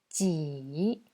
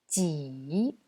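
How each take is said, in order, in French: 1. Elle se prononce avec le troisième ton. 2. Elle se prononce avec le troisième ton.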